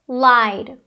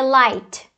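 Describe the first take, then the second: First: The word ends with a D sound. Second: The word ends with a T sound. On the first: The speaker calls it right. "vai ser lied, com o D" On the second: The speaker calls it wrong. "Não vai ser light, né, com T"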